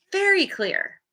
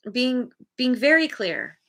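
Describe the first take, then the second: First: "very clear" jumps higher with emphasis; "very clear", pitched up and leaned on; stress on very clear. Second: Said in the usual way. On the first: Real, not acted. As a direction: lift "very" up high to underline it.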